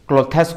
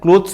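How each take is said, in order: First: The word is said as two syllables. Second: The word is said as one syllable. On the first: The speaker calls it wrong. "हमें ओडिया भाषा भाषी लोके कोन करू क्लोथेस कहि दउ ... बहुत बड़ mistake" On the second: The speaker calls it right. "यहाँ को हमें क्लोथ्स प्रोनाउंस करबा कथा"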